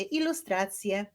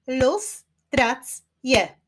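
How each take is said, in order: First: Said in the usual way. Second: "Ilustracje" slowly split as I-lus-trac-je, higher and louder; syllable by syllable. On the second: Shown as a demonstration. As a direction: clap out "Ilustracje" in four separate beats. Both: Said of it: "wyklaszczmy sylaby w wyrazie ilustracje".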